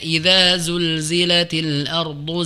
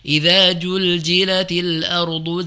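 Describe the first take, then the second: First: The word is said with z sounds. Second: The word is said with j sounds. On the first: The speaker calls it right. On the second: The speaker calls it wrong. "Jadi huruf jim"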